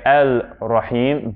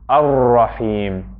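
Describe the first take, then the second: First: The article is said with a clear l sound. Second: The l blends into the following r sound. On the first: The speaker calls it wrong. "we don't say Al-Rahim" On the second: The speaker calls it right. "but ... Ar-Rahim"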